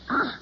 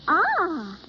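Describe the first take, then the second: First: It sounds disgusted. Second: It sounds pleased.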